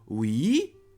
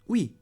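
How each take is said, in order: First: It is said very slowly. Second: It is said at normal speed. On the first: "once very slowly" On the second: "the second time at normal speed"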